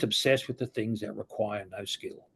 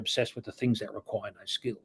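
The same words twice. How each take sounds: First: The phrase is spoken slowly and deliberately. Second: The phrase is spoken at a normal pace.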